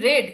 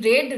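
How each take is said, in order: First: The vowel is short, like 'red'. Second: The same.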